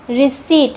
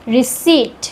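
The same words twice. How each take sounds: The two takes are said the same way.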